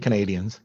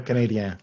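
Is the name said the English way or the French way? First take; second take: English; French. First: The name is said the English way. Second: The name is said the French way.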